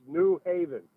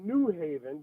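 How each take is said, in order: First: "New Haven" with the weight on Haven; "New Haven" stressed on its second word. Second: "New Haven" with the weight on New; "New Haven" stressed on its first word. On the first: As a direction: let New go and lean on Haven in "New Haven". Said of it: "and not the Haven". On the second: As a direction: punch New in "New Haven", not Haven. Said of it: "you're putting the emphasis on the new". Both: Shown as a demonstration.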